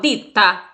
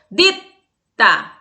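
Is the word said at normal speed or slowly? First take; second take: normal; slow. First: The word is said at normal speed. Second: The word is said slowly, t held. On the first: "Velocidade normal" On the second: "Vou fazer em câmera lenta"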